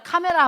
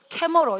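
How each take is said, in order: First: It is said with Korean vowels, ka-me-ra. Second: It is said with English vowels, kae-meo-reo. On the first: Americans would not understand it. The speaker calls it wrong. "미국 사람들한테 카메라 하면 알아들어 못 알아들어? 못 알아들어" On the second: Americans would understand it. The speaker calls it right. "캐머러 이렇게 해야지 알아듣는다고"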